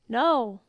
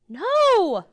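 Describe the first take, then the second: First: It is said plainly, like a statement. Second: It is said forcefully, like an exclamation.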